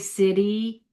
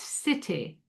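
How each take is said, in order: First: The middle T sounds like a soft D. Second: The middle T is a clear, crisp T.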